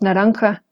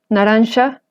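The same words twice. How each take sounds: First: The consonant before the last vowel is throaty 'h'. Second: The consonant before the last vowel is 'sh'. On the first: This is how it is said in Spanish today. "pasó a convertirse en la ja ... que ahora decimos naranja" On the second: This is how it was said in old Spanish. "ellos decían naranja, y ellos escribían este sonido con la X"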